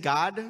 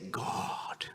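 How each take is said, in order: First: The word is said short and plain. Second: The word is stretched out and lengthened. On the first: The person is somewhat religious. "they're semi-religious" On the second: The person is very religious. "they're very religious; the longer his name gets in pronunciation"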